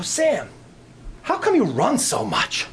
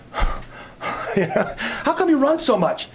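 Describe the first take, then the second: First: Said in the usual way. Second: Slow, high, laughing through the question; laughing repeat. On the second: Retold or imitated. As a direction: drag it out while laughing.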